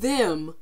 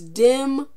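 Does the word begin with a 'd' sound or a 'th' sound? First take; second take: th; d. First: The word begins with a soft 'th' sound. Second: The word begins with a hard 'd' sound. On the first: The speaker calls it right. "Instead of saying them" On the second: The speaker calls it wrong. "D E M. ... that's not how you say them"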